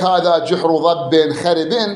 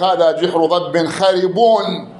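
First: The last word ends with a genitive i-sound. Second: The last word ends with a nominative u-sound. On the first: The adjective takes the case of its neighbor. "مجرور مجرور" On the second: The adjective follows its true grammatical case. "شوي ما أدري شلون، ثقيلة"

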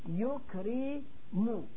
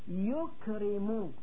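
Both takes have the same delivery.

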